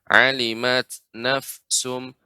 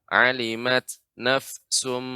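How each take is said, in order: Both takes have the same delivery.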